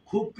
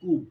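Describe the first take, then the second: First: The first consonant has a breathy puff. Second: The first consonant has no breathy puff. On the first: The speaker calls it right. "খুবকে যদি বলেন" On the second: The speaker calls it wrong. "যদি বলেন কুব, এটা কেমন হলো?"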